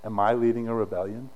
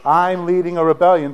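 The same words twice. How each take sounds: First: "Am I leading a rebellion" lower, rising at the end; low, rising question on "Am I leading a rebellion"; rhetorical question. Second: "I'm leading a rebellion" declared loud, falling at the end; loud, falling statement on "I'm leading a rebellion"; emphatic declaration. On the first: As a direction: ask "Am I leading a rebellion" as a restrained challenge. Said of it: "by a rhetorical question". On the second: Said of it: "The answer to it is yes". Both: Retold or imitated.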